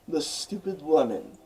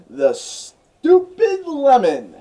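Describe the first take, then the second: First: Said in the usual way. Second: Much higher and louder, very slow and drawn out; grand dramatic announcement. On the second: Acted. Narrator presenting the outtake to viewers, grand and drawn out. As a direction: boom out "The stupid lemon" like a movie title, slow and loud.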